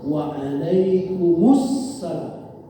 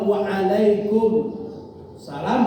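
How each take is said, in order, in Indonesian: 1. Frasa itu diucapkan bersambung tanpa jeda. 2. Ada jeda singkat di dalam frasa itu. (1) "ucapkannya sekaligus" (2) "berarti ada berhenti sebentar"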